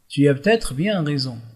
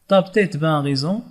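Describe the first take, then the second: First: Every word is pronounced in a standard, ordinary way. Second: Syllables are swallowed, giving a shortened clipped form. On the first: It is an everyday neutral register. "c'est une prononciation normalisée" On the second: It is a casual, familiar register. "كيبلع الكلمات ديالو"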